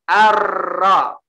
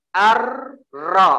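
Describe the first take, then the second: No difference in how they are said.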